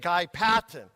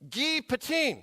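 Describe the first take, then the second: First: The name is said with an English pronunciation. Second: The name is said with a French pronunciation. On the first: "We would probably say Guy Patin" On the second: "That's how you'd pronounce it in French"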